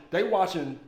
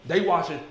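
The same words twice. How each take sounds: The two takes are said the same way.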